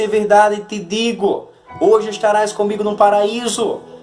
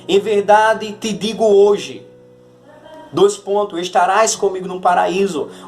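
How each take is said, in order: First: The pause comes before 'hoje'. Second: The pause comes after 'hoje'.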